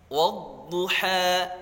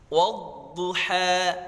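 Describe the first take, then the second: Both takes have the same delivery.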